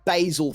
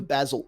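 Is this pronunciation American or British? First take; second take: American; British. First: It is said with an American pronunciation. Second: It is said with a British pronunciation. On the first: "The one thing that pissed me off when I lived there"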